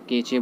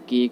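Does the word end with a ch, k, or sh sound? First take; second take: ch; k. First: The word ends with a 'ch' sound. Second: The word ends with a 'k' sound. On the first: "कोई केचे बोलता है" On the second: "इसका कोई केक बोलता है"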